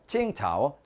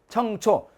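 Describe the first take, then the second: First: It is pronounced with the Mandarin reading qingcao. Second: It is pronounced with the Korean reading cheongcho. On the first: "중국 발음" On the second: "우리 한자 발음"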